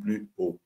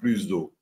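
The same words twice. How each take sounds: First: The s is not linked onto the next word. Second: The s is linked onto the next word. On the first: The speaker calls it right. "E sim plus ou" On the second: The speaker calls it wrong. "Por que você não diz plus ou?"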